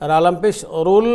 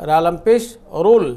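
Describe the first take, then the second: No difference in how they are said.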